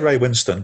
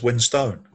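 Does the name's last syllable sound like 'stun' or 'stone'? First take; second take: stun; stone. First: The last syllable is a short, reduced 'stun'. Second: The last syllable is a full 'stone'. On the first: This is how the speaker usually says the name. "I say Ray Winston" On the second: This is how the man himself says his name. "he says Winstone"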